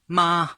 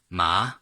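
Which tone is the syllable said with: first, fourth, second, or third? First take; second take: first; second. First: The pitch stays high and flat. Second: The pitch rises upward. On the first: It means mother. "First tone, ... high and flat tone, the first tone" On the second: It means what. "second, ... second tone, ma, going up"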